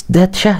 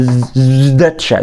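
First: سداتشا with s, the wrong way; wrong s pronunciation. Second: زداتشا slowly with a buzzing z; voiced z. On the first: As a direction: say سداتشا as sdatcha. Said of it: "لا مش سداتشا". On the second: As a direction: stretch the z of زداتشا. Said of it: "بتنطق الز". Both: Shown as a demonstration.

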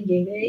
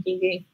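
First: "Llegué" stressed on the last E; stress on final syllable. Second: "llegué" said as LLE-gue, first syllable stressed. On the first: Teacher repeats the contrast for student, final-syllable stress on "Llegué". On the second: Teacher repeats the contrast for student, first-syllable stress on "llegué". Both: Shown as a demonstration. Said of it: "Fíjate con la pronunciación".

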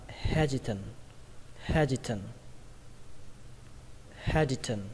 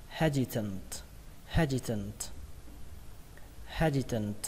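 First: "hesitant" ending on n, no closing t; final T dropped. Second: "Hesitant" stressed on he-, s as z, ending in t; final T sounded. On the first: Teacher shows learners they may skip it, final T dropped. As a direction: leave the last t off "hesitant". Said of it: "Cái âm T này các bạn có thể bỏ". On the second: Teacher models the word for learners, final T sounded. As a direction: say "Hesitant" with a clear closing t. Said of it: "Và kết thúc bằng âm T". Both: Shown as a demonstration.

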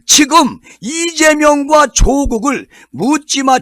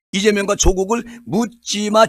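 First: 이재명과 raised high and stretched slowly; heavy emphasis. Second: Said in the usual way. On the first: Shown as a demonstration. Commentator stressing 이재명과 to Jeolla voters, slow and emphatic. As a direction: press hard on 이재명과, slow and lifted. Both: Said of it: "이 말은 무슨 말이냐면".

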